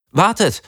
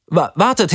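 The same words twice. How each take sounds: First: High, frightened call to the group; panicky call. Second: High, stuttered frightened call; stammering panicky call. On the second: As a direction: stumble over the word wartet in panic. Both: A narrator's reading. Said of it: "rief ich".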